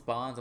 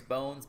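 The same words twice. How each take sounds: First: "Bonds" with an open vowel, like "bonds"; name said as "Bonds", short O; Bonds pronunciation. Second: "Bones" with a long O, rhymes with stones; name said as "Bones", long O; Bones pronunciation. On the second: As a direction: say "Bones" with the vowel of "go". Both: Shown as a demonstration. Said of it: "I'm not sure how people call it".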